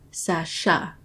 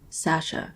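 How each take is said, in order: First: The name has strong emphasis on 'sha'. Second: The name is said in an incredulous tone.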